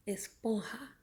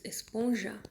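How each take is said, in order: First: "Esponja" with a Spanish throaty j, espon-ha; Spanish pronunciation. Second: Said in the usual way. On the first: Shown as a demonstration. Teacher showing the Spanish "Esponja", j as a rasped h. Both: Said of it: "Só a pronunciação que muda".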